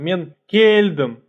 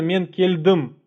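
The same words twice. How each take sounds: First: The stress is on the first syllable of keldem. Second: The stress is on the last syllable of keldem. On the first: The speaker calls it wrong. "нельзя сказать там" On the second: The speaker calls it right. "ударение падает именно на последний слог слова"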